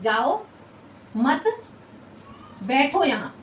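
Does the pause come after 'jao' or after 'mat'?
after jao. The pause comes after the word 'jao'. The listener is told to go and not sit here. "मैंने सुना जाओ"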